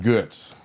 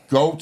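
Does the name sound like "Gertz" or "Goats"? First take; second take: [name]; Goats. First: The name is said like [name], with a rounded vowel. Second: The name is said like the English word goats. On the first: It is the way the name is said in Germany. The speaker calls it right. "they pronounce my last name [name]. If you're in Germany" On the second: It is the way people here read the spelling. The speaker calls it wrong. "as a kid, I'd be at the doctor's"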